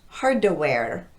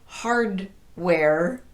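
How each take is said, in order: First: A short vowel is added after the D. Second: The D and W sound like separate words. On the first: "come off of that D with a vowel sound" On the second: "the two words still sound separate"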